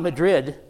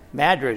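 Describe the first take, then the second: First: It is said the Spanish-city way. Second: It is said the local Iowa-town way. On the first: It names the capital of Spain. The speaker calls it wrong. "It's not Madrid" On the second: It names the small town in Iowa. The speaker calls it right. "how do you pronounce that town in Iowa?"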